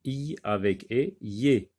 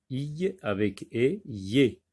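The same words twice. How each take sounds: The two takes are said the same way.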